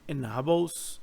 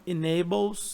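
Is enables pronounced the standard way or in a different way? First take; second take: different; standard. First: Enables is pronounced in a slightly different way. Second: Enables is pronounced in the usual standard way. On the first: "ele vai falar meio que enables. Ele tem uma pronúncia um pouco diferente" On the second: "ele não vai falar enables"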